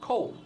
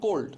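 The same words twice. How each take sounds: First: The final d is pronounced softly and lightly. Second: The final d is pronounced clearly and fully. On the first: "ওই ডিটাও আস্তে বলবে" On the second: "এই ডটা আমি দেখেন স্পষ্টভাবে বলতেছি"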